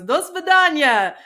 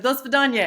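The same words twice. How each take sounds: First: Slow, higher, louder mock of his goodbye; imitating a Russian man. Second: Said in the usual way. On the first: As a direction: Do svidaniya said slowly, higher and louder, the way he said it. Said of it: "He goes". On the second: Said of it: "And I said".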